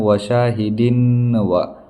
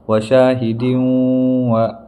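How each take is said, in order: First: The n is pronounced clearly without nasalization. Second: The n sound is nasalized through the nose. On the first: The speaker calls it wrong. "ये हमारा तरीका गलत है" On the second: The speaker calls it right. "असल है वशाहिदीं व"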